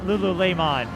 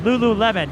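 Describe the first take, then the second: First: The name is said in a French-sounding style. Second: The name is said in a plain English style. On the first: The speaker calls it wrong. "not Lululemon. Unless there's some French pronunciation enthusiasts" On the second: The speaker calls it right. "I need to make a clarification"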